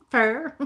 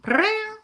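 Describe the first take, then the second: First: A short spoken cat purr; just say purr lightly; half-hearted cat purr; quick purr. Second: High rolled purr like a cat; proper try at a cat purr. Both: Shown as a demonstration. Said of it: "Let's see if I can do it".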